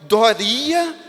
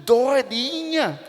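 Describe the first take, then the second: First: The name is said in an emotional, changed tone. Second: The name is said in an emotional, changed tone.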